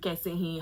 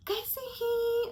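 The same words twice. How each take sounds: First: Said in the usual way. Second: Kaise hi? lifted high and drawn out sweetly; mock polite. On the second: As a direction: ask Kaise hi? in a high fake-friendly tone. Narrator asks aunt how she is.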